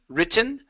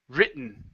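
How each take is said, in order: First: The T is clearly pronounced and released. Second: The T is a glottal stop, not released. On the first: "we can pronounce a a normal T" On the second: "a stop T"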